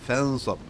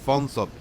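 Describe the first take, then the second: Both takes have the same delivery.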